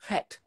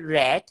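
First: The R is a French throaty R. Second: The R is an English R.

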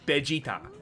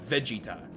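First: The name begins with a B sound. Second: The name begins with a V sound. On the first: The speaker calls it right. "It's B" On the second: The speaker calls it wrong. "not Vegeta"

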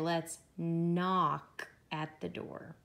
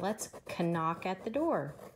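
First: The K at the start of 'knock' is silent. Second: The K at the start of 'knock' is pronounced. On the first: The speaker calls it right. "We say" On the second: The speaker calls it wrong. "We don't say"

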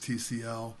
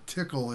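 First: It is spelled out letter by letter. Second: It is said as one word, tickle. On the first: "So you may hear it as TCL" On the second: "Tickle is the way AT&T pronounced it"

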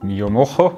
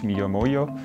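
First: The name is pronounced the Spanish way. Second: The name is pronounced the Japanese way. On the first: "wenn es Spanisch ist" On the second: "Oder vielleicht auf Japanisch"

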